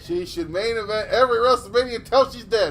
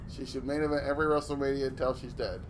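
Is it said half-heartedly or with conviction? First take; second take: with conviction; half-heartedly. First: It is said forcefully, with conviction. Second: It is said flatly, without conviction.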